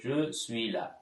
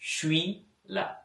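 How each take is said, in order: First: The full phrase is said, including je. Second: The phrase is shortened, dropping je. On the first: This is the standard form. "பிரெஞ்சுல je suis là சொல்றது" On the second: This is how people casually speak in France. "அதை சுருக்கி suis là சொல்லுவோம்"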